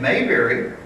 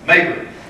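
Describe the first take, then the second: First: Each syllable is pronounced separately and clearly. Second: The syllables are run together quickly. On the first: This is how it is said in the Midwest. "Here in the Midwest, you pronounce the, the syllables" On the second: This is how it is said in New York City. "All run together"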